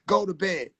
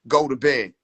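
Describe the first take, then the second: First: It is said in a thin voice without bass. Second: It is yelled in a deep, commanding voice.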